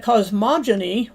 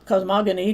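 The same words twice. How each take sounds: First: Cosmogony with the g like j, "koz-MOJ-uh-nee"; cosmogony, soft g. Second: Cosmogony with the g as in go, "koz-MOG-uh-nee"; cosmogony, hard g. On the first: Lecturer offers one of two accepted pronunciations, cosmogony with a soft g. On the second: Lecturer offers the alternative pronunciation, cosmogony with a hard g. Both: Shown as a demonstration. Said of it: "depending on who you ask".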